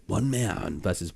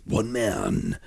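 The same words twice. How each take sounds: First: Softer take of a voice-over tagline; lighter character voice. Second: Heavier character voice. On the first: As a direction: put on the voice only lightly. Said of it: "that, you know, one man versus". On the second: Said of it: "sort of different". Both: Shown as a demonstration.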